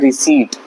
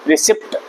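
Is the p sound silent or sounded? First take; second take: silent; sounded. First: No p sound is heard before the final t. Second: A p sound is heard before the final t. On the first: The speaker calls it right. "आपको बोलना है रिसीट" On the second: The speaker calls it wrong. "रिसिप्ट आप बोलते आ रहे हैं"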